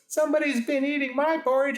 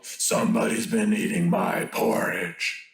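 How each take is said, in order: First: It is said in a grumbling, sulky voice. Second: It is said in a deep growling voice.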